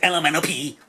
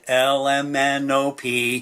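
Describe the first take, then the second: First: The letters are run together very quickly. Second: The letters are said slowly and separately. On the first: The speaker calls it wrong. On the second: The speaker calls it right.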